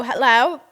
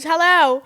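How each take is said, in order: First: Said in the usual way. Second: Loud high hello that drops at the end; George's flat hello. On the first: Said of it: "And I go". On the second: Retold or imitated. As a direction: bark it like a bored boyfriend. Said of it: "He goes".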